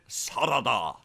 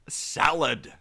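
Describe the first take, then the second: First: It is said with Japanese sounds, three syllables. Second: It is said as the plain English word.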